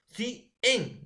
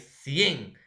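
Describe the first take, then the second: First: "Sí, en" as two separate high beats, SI, pause, EN; split into syllables. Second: "cien" in one unbroken loud syllable; joined as one syllable. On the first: Teacher shows students the wrong division, two split high syllables. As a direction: break "cien" apart into "Sí, en", pitched well up. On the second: Teacher corrects the division for students, one joined syllable. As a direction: glide the i into the e of "cien", no break. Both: Shown as a demonstration. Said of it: "¿O vas a dividirlo?".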